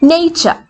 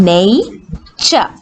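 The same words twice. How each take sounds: First: Said in the usual way. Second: "nature" drawn out as nay, pause, cha; split into syllables. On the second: Shown as a demonstration. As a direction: break "nature" in two to show both vowels. ("nature" നെയ്, ച എന്ന് മുറിച്ച് നീട്ടി) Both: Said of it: "Vowel sounds".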